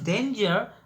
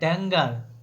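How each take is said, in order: First: It is said as the standard word danger. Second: It is said with a different vowel, like dengar. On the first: The speaker calls it right. "the word is danger" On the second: The speaker calls it wrong. "but I uh, pronounce that Dengar"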